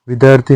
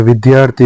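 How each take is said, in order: First: विद्यार्थी said as "vidarthi"; wrong cluster. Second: विद्यार्थी with clear dy; correct cluster. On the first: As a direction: drop the y in विद्यार्थी. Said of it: "नहीं होता है". (विद्यार्थी में य नहीं) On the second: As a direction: sound द्या in विद्यार्थी. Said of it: "होता है". (विद्यार्थी में द्या) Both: Shown as a demonstration.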